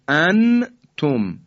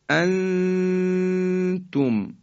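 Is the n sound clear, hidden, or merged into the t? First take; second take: clear; hidden. First: The n is pronounced fully and clearly. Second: The n is hidden as a held nasal sound. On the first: The speaker calls it wrong. "ما نمیگیم انتم، این اظهاره" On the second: The speaker calls it right. "ما حالتی بین در حقیقت اظهار و ادغام داریم"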